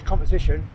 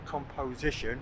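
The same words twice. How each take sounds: First: Said in the usual way. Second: "composition" said again with each syllable spelled out; careful pronunciation. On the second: Shown as a demonstration. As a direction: say "composition" slowly and clearly, with a full "po" sound in the middle. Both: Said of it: "the accent down here is, uh, not quite good".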